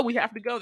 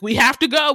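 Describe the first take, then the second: First: Said in the usual way. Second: Urgent shout. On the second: Retold or imitated. Zach urging kids to flee.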